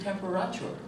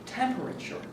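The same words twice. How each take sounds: First: The stress is on a later syllable. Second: The stress is on the first syllable. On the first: This is how the other speaker said it. The speaker calls it wrong. "for you, it was temperature" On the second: This is how the presenter says it. The speaker calls it right. "for me, the accent is on the first syllable"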